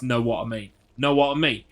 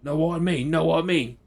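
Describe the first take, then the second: First: Light Cockney "know what I mean", a bit louder; Cockney catchphrase. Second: Higher, louder Cockney "know what I mean", dropped t's; full-on Cockney. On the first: Imitating Auntie Dina's Cockney catchphrase to a viewer. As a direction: quote Auntie Dina in a mild Cockney lilt. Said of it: "She was a Cockney". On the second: Imitating Auntie Dina's full Cockney for the viewer. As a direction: ham up a proper Cockney auntie. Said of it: "a full-on Cockney". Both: Retold or imitated.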